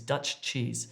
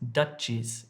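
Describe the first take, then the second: First: Both ch sounds are pronounced separately. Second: The two ch sounds merge into one. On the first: The speaker calls it right. "we distinguish between the two" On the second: The speaker calls it wrong. "when you combine them ... it sounds like Dutchies"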